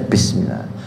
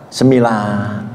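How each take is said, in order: First: The opening syllable is pronounced clearly and fully. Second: The opening syllable is slurred and blurred. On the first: The speaker calls it right. "Bismillah ya Bismillah" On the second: The speaker calls it wrong.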